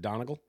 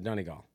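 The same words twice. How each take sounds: First: The ending sounds like 'monocle'. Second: The ending does not sound like 'monocle'. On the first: This is how people say it in America. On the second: This is how it is said in Ireland.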